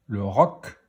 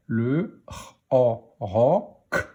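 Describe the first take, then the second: First: Said in the usual way. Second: Roc split into r, o, then a separate k; each sound of roc held apart. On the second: Shown as a demonstration. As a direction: decode roc sound by sound, loud and distinct. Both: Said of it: "On y va pour la lecture des mots".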